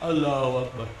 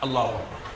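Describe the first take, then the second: First: It is said limply, without energy. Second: It is said with excessive energy.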